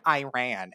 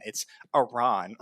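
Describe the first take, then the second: First: "Iran" said as eye-RAN, the way the speaker says it; "Iran" with a long I and a flat A, like "eye-ran"; the speaker's own eye-RAN "Iran"; mock wrong "Iran". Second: "Iran" said as ee-RAHN, slowly and fussily; "Iran" as ee-RAHN, slow and snooty; mock correction "Iran". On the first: Shown as a demonstration. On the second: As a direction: correct "Iran" as ee-RAHN like a know-it-all commenter. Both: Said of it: "it's pronounced Iran".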